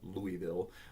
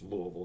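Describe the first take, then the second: First: It uses a non-local, outsider pronunciation. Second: It uses the local southern Indiana pronunciation. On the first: Someone from outside the area says it. The speaker calls it wrong. "not Louisville" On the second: The speaker is from the area. The speaker calls it right. "I'm from southern Indiana, so it's Louisville"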